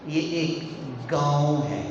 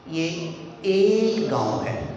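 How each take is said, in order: First: The stress falls on the word गांव. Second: The stress falls on the word एक. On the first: It is a village, not a city. "अगला बंदा ये समझ रहा है कि ये शहर है" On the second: It is one village, not two. "कि वो बंदा समझ रहा है कि ये दो गांव हैं"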